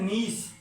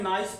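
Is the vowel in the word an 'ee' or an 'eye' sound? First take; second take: ee; eye. First: The vowel sounds like 'ee', as in see. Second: The vowel sounds like 'eye', as in nice. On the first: The speaker calls it right. "इसको पढ़ते हैं नीस" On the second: The speaker calls it wrong. "इसको ज़्यादातर लोग गलत sound में पढ़ते हैं, नाइस पढ़ा करते हैं"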